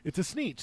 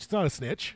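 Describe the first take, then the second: First: "sneetch" said with a long ee, like "sneech"; sneetch pronounced. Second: "snitch" said with a short i, like "stitch"; snitch pronounced. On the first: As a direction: make "sneetch" rhyme with "leech". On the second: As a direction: clip the vowel in "snitch" short. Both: Shown as a demonstration.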